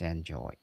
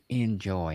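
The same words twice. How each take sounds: First: The first syllable sounds like 'en'. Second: The first syllable sounds like 'in'. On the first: The word is the ordinary verb. The speaker calls it wrong. "not enjoy" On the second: The word is heard as being in joy. The speaker calls it right. "mister Enjoy"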